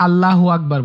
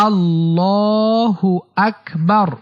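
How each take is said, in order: First: আল্লাহু আকবার said quickly with short vowels; আল্লাহু আকবার run together in quick everyday speech; mispronounced takbir. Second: আল্লাহু আকবার slow, with a long held "llaa"; আল্লাহু আকবার in measured, elongated recitation; correct takbir pronunciation. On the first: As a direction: rush through আল্লাহু আকবার, no lengthened "llaa". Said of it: "এটা ভুল উচ্চারণ". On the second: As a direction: stretch the middle vowel of আল্লাহু, then say আকবার distinctly. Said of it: "সঠিক উচ্চারণ হচ্ছে". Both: Shown as a demonstration.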